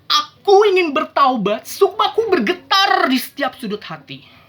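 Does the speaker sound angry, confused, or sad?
angry. It is loud and forceful, with raised volume. The speaker is furious. "itu adalah ekspresi marah"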